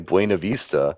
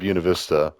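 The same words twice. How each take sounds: First: The name is said with Spanish sounds. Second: The name is said with English, non-Spanish sounds. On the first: This is how it would be said in a Spanish-speaking place. The speaker calls it wrong. "that's correct how you would pronounce it if it was a Spanish speaking place" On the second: This is what locals have always called the town. The speaker calls it right. "notice I didn't say it with a Spanish accent"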